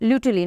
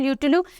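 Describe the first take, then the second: First: The name ends with an 'ee' sound. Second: The name ends with an 'oo' sound. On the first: The speaker calls it right. "या फिर ल्यूटुली" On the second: The speaker calls it wrong. "Not ल्यूटुलू"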